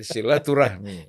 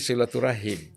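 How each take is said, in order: First: The word ends with the sounds 'rahmi'. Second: The word ends with the sounds 'rahim'. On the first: This is the changed, commonly used form. "jadi silaturahmi" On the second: This is the original form. "aslinya itu silaturahim"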